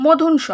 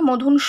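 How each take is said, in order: First: Said in the usual way. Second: "স" in "মধুন স" held long as an open "অ"; inherent vowel demonstration. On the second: Shown as a demonstration. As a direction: stretch the end of "মধুন স" into a long "অ". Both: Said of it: "তাই অ বসে গেল".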